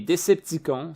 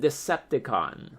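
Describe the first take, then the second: First: Said in the Quebec-dub French pronunciation. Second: Said with an English pronunciation. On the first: This is the form used in Quebec dubbing. "Les Québécois apprécient que la prononciation" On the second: This is the original English form. "À l'anglaise"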